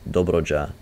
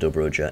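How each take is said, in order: First: It is said with a Romanian accent. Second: It is said with an American accent. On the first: The speaker calls it right. "The Romanian pronunciation would be" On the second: The speaker calls it wrong. "I said all of those words with an American accent"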